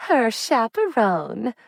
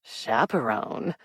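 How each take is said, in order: First: Teasing lilt, much higher and slow; playful mock-formal tease. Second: Skeptical echo. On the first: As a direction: tease her about her cousin. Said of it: "Lottie teased". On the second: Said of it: "Raymond repeated, brow raised". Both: A narrator's reading.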